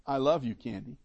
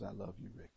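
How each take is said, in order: First: Tender I love you. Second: Soft unvoiced whisper of "I love you, Rick". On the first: Retold or imitated. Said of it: "when I tell her". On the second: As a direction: breathe it like a wife's tender whisper. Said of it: "I really like it when she says".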